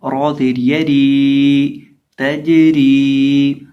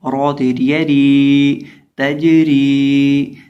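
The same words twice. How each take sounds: First: तजरी recited again with the जीम bouncing, very slow; slow tajweed recitation. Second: तजरी with the जीम bounced and drawn out; slow tajweed recitation. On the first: Teacher repeats तजरी slowly for students. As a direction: draw out तजरी and let the जीम ring. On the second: Teacher recites तजरी slowly so students hear the qalqala. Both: Shown as a demonstration. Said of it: "जीम को हिलाकर पढ़ेंगे".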